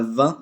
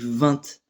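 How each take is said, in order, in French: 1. Le T final ne se prononce pas. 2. Le T final se prononce. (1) "quasiment toute la France qui le dit" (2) "il y en a qui prononcent le T"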